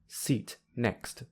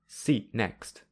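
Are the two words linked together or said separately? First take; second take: separately; linked. First: The two words are said separately. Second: The two words run together smoothly. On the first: "without linking" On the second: "with linking"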